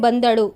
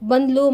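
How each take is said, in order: First: The word is said with all three syllables. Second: The middle vowel is dropped, shortening the word.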